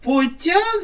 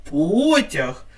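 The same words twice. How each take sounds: First: "потяг" with тяг stressed, по light; stress on second syllable. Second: "Потяг" with По stressed and stretched; stress on first syllable. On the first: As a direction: push the weight to the end of "потяг". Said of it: "на другий склад". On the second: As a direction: put the weight on the start of "Потяг". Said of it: "змінимо наголос". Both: Shown as a demonstration.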